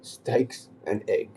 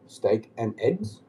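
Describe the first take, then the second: First: Very slowly, steaks stressed and egg singular. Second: Slow, with eggs stressed as plural. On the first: Mocking a friend's order, steaks and egg drawn out. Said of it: "Do you mean steak and eggs?". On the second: Mocking a friend's order, steak and eggs said slowly. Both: Shown as a demonstration.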